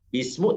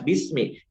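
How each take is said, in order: First: The word ends with a 'u' vowel. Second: The word ends with an 'i' vowel. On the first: The speaker calls it wrong. "tidak boleh" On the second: The speaker calls it right. "harus bismi"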